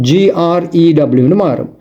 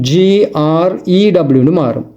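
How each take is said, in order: The two takes are said the same way.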